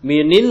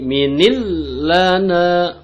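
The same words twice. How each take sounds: First: "minil" cut off and stopped, no flow into lana; wrong reading. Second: Chanted, "minil lana" recited higher, flowing into lana; correct chant. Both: Shown as a demonstration. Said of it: "nggak usah minil".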